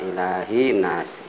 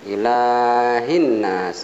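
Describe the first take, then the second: First: The word ends in i with no n. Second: A doubled n links the two words. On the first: The speaker calls it wrong. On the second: The speaker calls it right.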